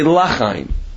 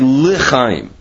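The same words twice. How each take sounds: First: The L is followed by an a sound. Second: The L is followed by a short e sound. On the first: It could be heard as asking for no life. The speaker calls it wrong. "if you're not careful, you might say L'chaim" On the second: It asks for life. The speaker calls it right. "you should pronounce the under the lamed as a shva"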